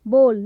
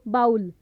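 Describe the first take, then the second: First: The vowel is a long 'oh' sound. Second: The vowel is an 'ow' sound. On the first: The speaker calls it right. "सही उच्चारण करेंगे वो होगा बोल" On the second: The speaker calls it wrong. "ना कि बाउल"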